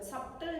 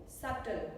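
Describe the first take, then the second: First: "Subtle" with the b sounded, like sub-tle; mispronounced subtle. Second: Said in the usual way. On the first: Shown as a demonstration. Teacher showing learners the mistake, b sounded in "Subtle". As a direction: wrongly pronounce the b in "Subtle". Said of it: "B is not spoken. Subtle नहीं". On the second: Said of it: "B is not spoken".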